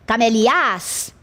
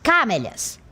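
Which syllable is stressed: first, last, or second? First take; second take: last; first. First: The stress is on the last syllable. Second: The stress is on the first syllable. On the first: "para a última, ficaria camelias? Também não é assim que se pronuncia" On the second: "para a primeira sílaba, ficaria camélias. Não é assim que se pronuncia"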